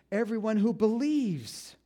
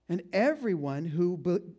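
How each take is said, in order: First: "believes" hit higher and louder, slowed; stress on believes. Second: Said in the usual way. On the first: Shown as a demonstration. Preacher correcting his slip, stressing "believes". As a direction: lean hard on "believes". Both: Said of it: "not behaves".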